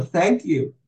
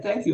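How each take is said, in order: First: "Thank you" said a little higher, like mildly retelling tears; a light imitation of choking up while saying "Thank you"; retold tearful thanks. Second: "Thank you" repeated higher, a touch more choked up than the first; mildly imitated tears rising on the repeated "Thank you"; retold tearful thanks, repeated. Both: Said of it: "I started crying".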